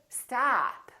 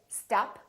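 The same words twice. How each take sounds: First: The vowel is long and drawn out. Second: The vowel is short and clipped. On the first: The speaker calls it right. "We prolong the ah in the stressed syllable" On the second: The speaker calls it wrong. "don't say stop"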